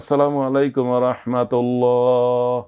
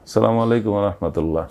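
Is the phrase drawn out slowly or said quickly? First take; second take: drawn out; quick. First: It is said loudly and drawn out slowly. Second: It is said quickly and finished early. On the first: The leader says it at his own measured pace. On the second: The follower finishes it before the leader does.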